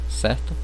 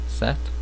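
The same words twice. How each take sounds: No difference in how they are said.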